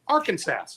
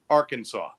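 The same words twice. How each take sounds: First: The last syllable sounds like 'sass'. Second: The last syllable sounds like 'saw'.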